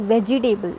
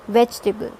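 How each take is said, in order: First: Vegetable as vej-ee-TAY-bul; vegetable with a full "table" ending; four-syllable mispronunciation. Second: Vegetable as VEJ-tuh-bul; vegetable squeezed into three syllables; three-syllable pronunciation. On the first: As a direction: sound all four parts of vegetable. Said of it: "not vegetable". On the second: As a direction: stress "vej" and drop the middle vowel of vegetable. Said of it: "it's vegetable". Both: Shown as a demonstration.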